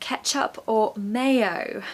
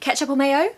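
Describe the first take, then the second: First: It is said slowly and clearly. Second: It is said quickly and run together. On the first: "They're actually saying" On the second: "the most difficult one to understand when it's said fast"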